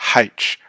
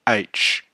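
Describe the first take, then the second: First: The letter name begins with an h sound. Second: The letter name begins with a vowel sound. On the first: The speaker calls it wrong. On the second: The speaker calls it right. "the correct pronunciation"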